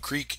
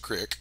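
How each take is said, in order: First: It is said with standard pronunciation. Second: It is said with local Nevada pronunciation. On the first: "a creek is a crick" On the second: "Nevada accent"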